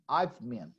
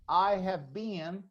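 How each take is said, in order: First: Have is shortened and joined to I. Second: Have is said as a full separate word. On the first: "it's more common to say" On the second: "Instead of saying"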